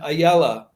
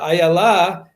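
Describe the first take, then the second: First: The stress falls before the last syllable. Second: The stress falls on the last syllable. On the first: It is the Yiddish pronunciation. "rather than in the Yiddish pronunciation" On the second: It is the Hebrew pronunciation. "pronounced in the Hebrew way with the uh, emphasis on the last"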